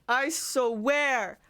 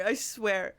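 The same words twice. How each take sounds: First: "swear" stretched into "so-wear"; exasperated, long-drawn "swear"; emphatic stretch. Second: Said in the usual way. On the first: Real, not acted.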